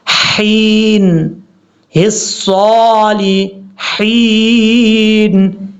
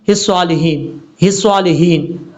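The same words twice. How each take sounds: First: हिस्सॉलिहीन drawn out slowly, the ह after लाम light and thin; correct tajweed. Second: हिस्सॉलिहीन said quickly, the ह heavy and slurred; rushed wrong reading. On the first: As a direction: stretch हिस्सॉलिहीन with a fine, light ह. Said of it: "ये है इसका पढ़ने का तरीका।". (हिस्सॉलिहीन को बारीक ह के साथ धीरे से पढ़ना) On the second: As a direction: rush through हिस्सॉलिहीन carelessly. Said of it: "लोग जल्दी में क्या पढ़ जाते हैं?". (हिस्सॉलिहीन को जल्दी में गलत पढ़ना) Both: Shown as a demonstration.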